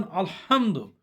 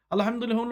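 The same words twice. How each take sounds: First: "আলহামদু" with a big, emphatic ha. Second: "আলহামদুলিল্লাহ" with a light small H. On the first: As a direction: press the "হা" in "আলহামদু" as a strong throat H. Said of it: "হয়ের উচ্চারণটা বড় হওয়ার জন্যে". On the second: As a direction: mispronounce "আলহামদুলিল্লাহ" using the small ha, not the big one. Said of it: "ছোট হটা করেন". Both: Shown as a demonstration.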